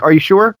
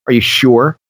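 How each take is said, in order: First: "Are you sure?" with a bright high rising question on sure; asking "Are you sure?" as a genuine, curious question. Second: A mocking, faintly nasty "Are you sure?"; sardonic. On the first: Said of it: "Not that kind of questioning tone". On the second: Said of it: "that kind of sardonic, almost borderline nasty". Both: Shown as a demonstration.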